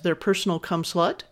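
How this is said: The voice rises at the end.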